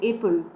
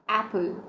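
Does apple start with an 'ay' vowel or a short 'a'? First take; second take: ay; short a. First: It starts with the long 'ay' vowel. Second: It starts with the short 'a' vowel. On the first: The letter's name is used instead of its sound. The speaker calls it wrong. "So we don't say apple" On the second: The letter's sound is used. The speaker calls it right. "We say apple. So we pronounce it with the sound"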